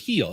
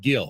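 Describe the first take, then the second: First: The name begins with an H sound. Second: The name begins with a hard G sound. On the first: This is the original Spanish form. The speaker calls it right. "but it's it's Spanish. It's heel" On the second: This is the anglicized form. The speaker calls it wrong. "It's not pronounced Gill"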